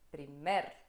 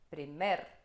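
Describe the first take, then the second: First: The stress is on the second syllable. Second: The same.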